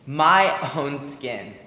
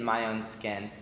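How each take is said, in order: First: MY stretched out and stressed, slow; emphatic echo. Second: Said in the usual way. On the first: Acted. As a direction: lean on MY, drawing out "My own skin". Echoes the phrase for emphasis.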